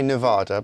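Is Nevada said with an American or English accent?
English. It is said with an English accent. "how you would say it with an English accent"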